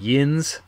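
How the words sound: The word is said with an 'in' vowel. This is the Pittsburgh-area form. "Pittsburgh, which people say like yins"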